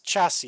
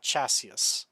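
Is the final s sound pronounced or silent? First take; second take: silent; pronounced. First: The final s sound is silent. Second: The final s sound is pronounced. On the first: The speaker calls it right. "The third S is silent" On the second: The speaker calls it wrong. "and not"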